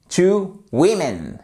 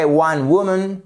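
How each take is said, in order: First: "women" as WIM-in after a slow "two"; "women", stressed WIM, drawn out and falling; correct plural. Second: "woman" as WU-mun after "One"; "woman", stressed WU and weak ending; correct singular. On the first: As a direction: model "two women" slowly, clear i. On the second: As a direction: model "One woman" with rounded first vowel. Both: Shown as a demonstration. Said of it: "On passe d'un son qui est assez large".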